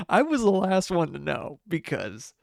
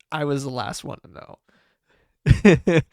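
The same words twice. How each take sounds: First: Said in the usual way. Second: "I was the last one to know" slow, loud and drawn out; slow emphatic punchline. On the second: Real, not acted.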